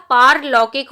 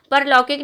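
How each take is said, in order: First: पारलौकिक said with a long aa in paar; पारलौकिक, the long paar- stretched out; correct form. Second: परलौकिक said with a short a in par; परलौकिक, the short par- version; wrong form. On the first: Teacher giving the correct पारलौकिक, with a long aa. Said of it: "होगा". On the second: Teacher showing the mistaken परलौकिक, with a short a. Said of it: "नहीं होता". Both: Shown as a demonstration.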